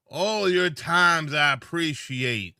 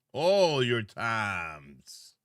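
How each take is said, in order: First: Slow and firm. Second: Dragged out, very slow; slow drawn out. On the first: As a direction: lean into each word. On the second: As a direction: stretch every word. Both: Shown as a demonstration.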